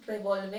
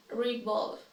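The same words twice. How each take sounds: First: "Revolve" as reh-VOL-veh; incorrect pronunciation. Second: "revolve" as ri-VOLV; correct pronunciation. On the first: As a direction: sound the final e in "Revolve". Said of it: "I will say each one incorrectly". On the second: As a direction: end "revolve" on the consonant, silent e. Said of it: "then I'll say it correctly". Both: Shown as a demonstration.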